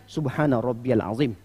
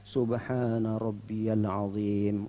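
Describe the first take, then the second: First: The phrase is recited lightly and quickly. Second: The phrase is recited slowly and deliberately. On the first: The prayer is shortened. "dia agak ringankan lagi" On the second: This is the usual full recitation. "bacaannya tartil sekali"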